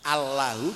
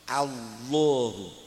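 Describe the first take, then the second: First: The L sound is light and thin. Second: The L sound is heavy and thick. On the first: "asalnya lam" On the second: "sebelumnya fathah harus dibaca tafkhim menjadi Allahu"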